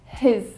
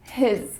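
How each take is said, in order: First: It is shortened to one syllable. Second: The same.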